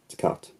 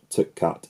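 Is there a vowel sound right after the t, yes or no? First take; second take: no; yes. First: No vowel follows the t before the next word. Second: A short vowel follows the t before the next word. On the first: The speaker calls it right. "it's tapper, t cut" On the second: The speaker calls it wrong. "So it's not like t apple, t cut"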